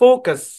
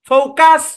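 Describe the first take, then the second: First: The second syllable has a reduced schwa vowel. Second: The second syllable has a full vowel. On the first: The speaker calls it right. "সোয়া sound হবে, অর্ধ আকার" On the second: The speaker calls it wrong. "No, কাস না"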